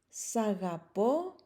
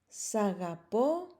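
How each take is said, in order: Both takes have the same delivery.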